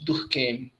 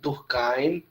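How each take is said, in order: First: The name is pronounced with French sounds. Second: The name is pronounced with German sounds. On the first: "pronunciado como francês" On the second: "pronunciado como alemão"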